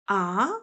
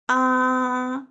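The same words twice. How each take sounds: First: The pitch rises from middle to high. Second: The pitch stays high and level. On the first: "what? Surprising sound" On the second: "open mouth sound"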